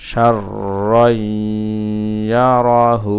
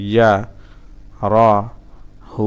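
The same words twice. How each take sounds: First: Joined recitation. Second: Syllable by syllable. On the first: Teacher putting the word back together, joined chant. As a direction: link it all, holding the long sounds. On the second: Teacher breaking a word down for learners, syllable by syllable. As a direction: hold and separate each syllable. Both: Shown as a demonstration.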